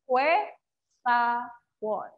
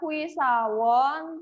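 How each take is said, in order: First: The first syllable is pronounced like 'hue'. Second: The first syllable is pronounced like 'hui'. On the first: The speaker calls it right. "tapi jadi hue sawon" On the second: The speaker calls it wrong. "bacanya bukan hui sawon"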